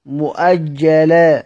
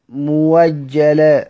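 First: مؤجلة with a clear glottal stop, slow; with hamza. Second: موجلة with the hamza turned into a w sound, slow; hamza as waw. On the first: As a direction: say مؤجلة drawn out, hamza sounded. (مؤجلة بالهمز ببطء) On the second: (موجلة بإبدال الهمزة واوًا ببطء) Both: Shown as a demonstration. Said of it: "يقف على سيدنا حمزة إزاي؟".

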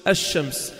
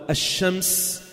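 First: "الشمس" with silent L, doubled sh; silent sun lam. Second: "الشمس" with the L wrongly sounded and held; wrong lam pronunciation. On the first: Teacher giving students the correct form, silent L in "الشمس". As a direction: say "الشمس" as ash-shams, no L heard. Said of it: "شو بتقول؟ الشمس". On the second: Teacher showing students what nobody says, L sounded in "الشمس". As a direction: say "الشمس" as al-shams, L fully audible. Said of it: "فأنت ما بتقول الشمس". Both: Shown as a demonstration.

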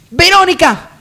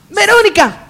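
First: High call across the house. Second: Impatient call. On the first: Lady calls her maid from the hall, loud call. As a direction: summon the maid loudly. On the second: Lady calls her maid again, higher impatient yell. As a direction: yell for the maid, losing patience. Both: Acted.

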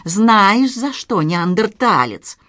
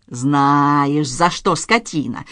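First: Angry taunt. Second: Slow, restrained menace through a hiss; hissed anger. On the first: Professor scolding his nephew, angry and louder. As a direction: hit the first word hard, then slow down. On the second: Professor twisting his nephew's nose, hissing in anger. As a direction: hiss it slowly, drawing out each word. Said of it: "прошипел профессор". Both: A narrator's reading.

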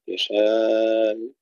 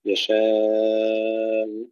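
First: يشاء with a moderate alif; medium length. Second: يشاء with the alif held very long; full lengthening. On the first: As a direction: hold يشاء only halfway. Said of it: "هشام يشاء بالتوسط". (توسط المد في يشاء) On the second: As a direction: draw out the alif of يشاء fully. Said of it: "يقرأ بإشباع المد المتصل". (إشباع المد في يشاء) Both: Shown as a demonstration.

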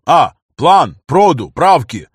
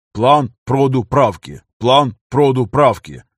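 First: Sung, громко, лозунгом по слогам; sung, как речёвка на митинге; sung, скандирование. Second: Sung, скандирование толпы. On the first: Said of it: "громогласно проскандировал". (sung, громкая речёвка, медленно) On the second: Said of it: "подхватила речевку". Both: Acted.

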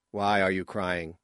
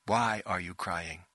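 First: Said in the usual way. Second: Slow, deliberate line demonstration; director's model reading. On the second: A narrator's reading. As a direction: model the line slowly for an actor.

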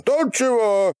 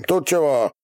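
First: Very high, yelled question; louder yell. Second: Higher-pitched brusque question; demanding shout. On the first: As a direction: yell it as if deafened. (истошный ор, будто оглох) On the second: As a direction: demand an answer in a raised voice. (требовательный окрик) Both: A narrator's reading. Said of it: "пуще будто оглохший заорал Ярыга".

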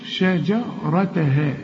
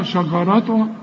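First: Slow شجرتها, thin sha and clear dj; correct light shin. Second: شجرتها with thick, dark sha; wrong heavy shin. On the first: Teacher corrects student, slow light articulation. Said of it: "لا، شجرة". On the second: Teacher mimics student's mistake, heavy shin. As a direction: rush شجرتها with heavy vowels. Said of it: "هترجع تقول لي". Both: Shown as a demonstration.

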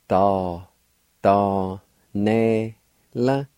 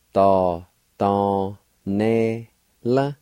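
No difference in how they are said.

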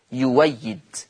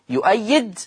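First: يويد with an open w, no glottal stop; hamza turned waw. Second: يؤيد with a glottal catch after yu; hamza kept. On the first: Teacher repeats the substituted example, يويد with a w sound. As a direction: glide through يويد as yu-way-yid. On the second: Teacher repeats the original word, يؤيد with its hamza. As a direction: say يؤيد as yu-'ay-yid. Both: Shown as a demonstration. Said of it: "هتبدل واو مفتوحة".

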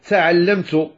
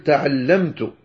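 First: تعلمت with its ta's hissing toward s; wrong Moroccan-style ta; sibilant ta demo. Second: تعلمت with clean ta's and no hiss, said slowly; correct ta. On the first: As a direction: demonstrate the wrong, s-tinged ta in تعلمت. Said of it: "هذا خطأ. فلا تقل". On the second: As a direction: say تعلمت with a pure Arabic ta. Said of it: "قل تعلمت". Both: Shown as a demonstration.

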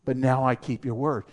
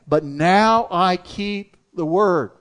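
First: Said in the usual way. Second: Slow, with the weight on "now"; stress on now. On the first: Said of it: "Here it's talking about". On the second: Shown as a demonstration. Pastor repeats the verse to drive it home, slow with "now" stressed. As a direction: lean on "now" and let the line fall slowly. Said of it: "He knew that".

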